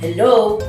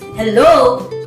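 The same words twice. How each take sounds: First: The pitch falls from low on the word. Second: The pitch falls and then rises on the word. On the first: The speaker sounds cold. "With a low fall, cold" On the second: The speaker sounds doubtful. "With a fall rise, doubtful"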